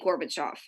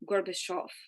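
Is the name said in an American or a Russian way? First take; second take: American; Russian. First: The name is said in an American pronunciation. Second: The name is said closer to Russian pronunciation. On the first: The speaker calls it wrong. "but we say Gorbachev" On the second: The speaker calls it right. "I think it's Gorba Gorbachev"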